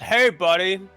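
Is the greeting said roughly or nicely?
roughly. The greeting sounds rough and unfriendly.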